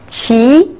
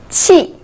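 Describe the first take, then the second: First: The pitch rises from mid to high. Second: The pitch falls sharply from high.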